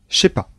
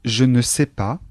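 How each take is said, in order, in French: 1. Le mot 'ne' est omis devant le verbe. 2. Le mot 'ne' se prononce devant le verbe.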